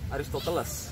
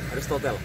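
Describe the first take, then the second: First: The name ends with a spoken final -es syllable. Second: The name ends on -tel with no final syllable. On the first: The speaker calls it wrong. "Tapi kalian jangan baca Aristoteles, ya. Nanti kelihatan cupu" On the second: The speaker calls it right. "spellingnya tuh Aristotel"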